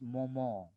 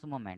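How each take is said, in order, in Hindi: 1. शब्द नासिका वाली 'on' ध्वनि पर खत्म होता है। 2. शब्द सादी 'ment' ध्वनि पर खत्म होता है। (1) "E N is on" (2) "that is what they don't pronounce moment"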